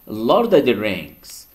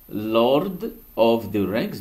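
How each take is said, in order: First: The word 'of' is reduced to 'a'. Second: The word 'of' is pronounced fully.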